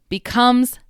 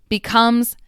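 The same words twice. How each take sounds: Both takes have the same delivery.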